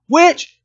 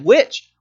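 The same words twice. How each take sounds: First: High, loud shrieking accusation; angry mob shout. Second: Raised, questioning accusation; accusing cry. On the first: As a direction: scream it like a frightened mob. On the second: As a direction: call out like a suspicious villager. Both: Retold or imitated. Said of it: "Now you've got people screaming".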